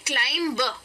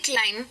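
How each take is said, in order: First: A b sound is heard after the m. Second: The word ends on the m sound. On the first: The speaker calls it wrong. "ज्यादातर लोग उसे कहते हैं क्लाइम ब" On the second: The speaker calls it right. "तो इसे कहना चाहिए क्लाइम"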